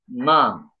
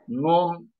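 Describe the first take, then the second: First: The word is said with an a vowel. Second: The word is said with a u vowel. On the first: "U'lu kelimeleri a şeklinde okuyoruz" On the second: "u'lu şeyleri"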